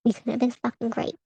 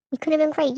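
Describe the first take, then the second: First: Said in the usual way. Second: "We could have been great" pitched higher, pushed a little harder, falling on have; emphatic repeat. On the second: Real, not acted. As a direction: lift the line higher and lean on have. Ranting at absent ex.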